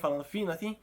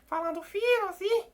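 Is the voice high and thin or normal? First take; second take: normal; high and thin. First: It is said in a normal speaking voice. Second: It is said in a high, thin voice.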